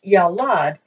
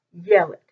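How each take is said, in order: First: Yalad with the weight on the second syllable, "lad"; stress on last syllable. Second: Yeled with the weight on "Ye", eh vowels; stress on first syllable. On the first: Teacher contrasting two Hebrew words, stress on the end of Yalad. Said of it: "instead of being pronounced". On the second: Teacher showing the exception, stress on the start of Yeled. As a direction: say Yeled accented at the beginning. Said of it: "have the accent at the beginning". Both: Shown as a demonstration.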